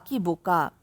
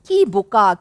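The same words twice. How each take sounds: First: "কি বোকা" dropped lower and much softer; a woman scolding her younger self, "কি বোকা" fading into a murmur; faded echo. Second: Said in the usual way. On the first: A narrator's reading. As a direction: let the repeated "কি বোকা" die away under the breath. Narrator's self-reproach, repeated.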